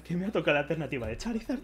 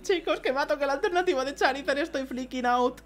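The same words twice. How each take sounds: First: Said in the usual way. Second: Much higher, rising excitement; excited. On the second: Real, not acted. Telling viewers again about the Charizard, much higher and excited. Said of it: "Estoy flipando muchísimo".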